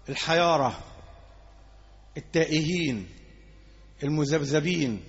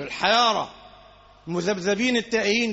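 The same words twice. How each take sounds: First: Each word drawn out, low and slow; slow low listing. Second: Said in the usual way. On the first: Shown as a demonstration. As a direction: lay out the three words slowly and darkly. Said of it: "اللي هم مين؟". (تعداد بطيء وصوت منخفض) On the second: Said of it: "ده كتير".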